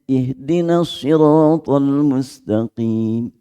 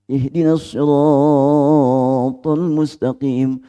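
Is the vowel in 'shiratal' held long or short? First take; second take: short; long. First: The vowel in 'shiratal' is kept short. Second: The vowel in 'shiratal' is stretched out too long. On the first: The speaker calls it right. "Jangan kepanjangan roknya" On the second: The speaker calls it wrong. "Roknya kepanjangan"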